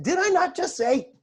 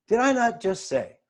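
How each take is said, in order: First: High-pitched comic scolding; exaggerated mock reproach. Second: Toned-down, measured reminder, falling at the end; milder reproach. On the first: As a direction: act out exasperated reminding, voice jumping up. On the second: Acted. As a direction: remind them pointedly without the exaggeration. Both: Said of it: "Probably didn't say it like that".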